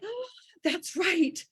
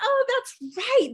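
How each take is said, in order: First: Slow, gentle "Oh, that's right"; dawning realization. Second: A bigger, delighted second "Oh, that's right"; excited realization. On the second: Host mimicking listeners' hearts, a high slow excited realization. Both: Retold or imitated. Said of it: "your hearts are like".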